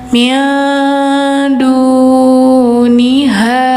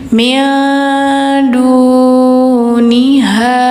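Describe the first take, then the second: No difference in how they are said.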